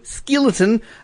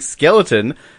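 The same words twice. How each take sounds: First: It is said in a New Zealand accent. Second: It is said without a New Zealand accent.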